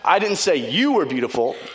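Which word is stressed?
you. The stress is on "you".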